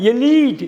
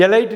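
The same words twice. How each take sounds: First: எலீட் said 'e-LEET', higher on the long ee; correct long-ee pronunciation. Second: எலைட் said 'e-LITE'; wrong 'lie' pronunciation. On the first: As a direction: punch a long 'lee' in எலீட். (எலீட் - 'லீ' உயர்த்தி நீட்டிய உச்சரிப்பு) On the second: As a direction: make எலைட் end like 'light'. (எலைட் - 'லை' என்ற தவறான ஒலி) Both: Shown as a demonstration. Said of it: "எலைட் இல்லைங்க".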